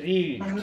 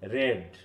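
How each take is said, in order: First: The vowel is a long 'ee' sound. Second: The vowel is a short 'e' sound. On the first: It is the present form of the verb. "লং ভাল sound আছে এখানে" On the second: It is the past form of the verb. "শর্ট ভাল sound এবং এ"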